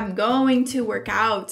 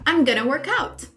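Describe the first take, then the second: First: The words 'going to' are said in full. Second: The words 'going to' are reduced to 'gonna'. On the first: "você viu como é meio demorado falar assim, going to?" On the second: "Viu como fica mais rápido, até flui melhor?"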